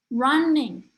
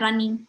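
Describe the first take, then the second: First: Flowing syllables with one clearly stressed syllable. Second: Short, even syllables with no clear stress. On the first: The speaker calls it right. "lebih flowy" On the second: The speaker calls it wrong. "kayak pendek-pendek"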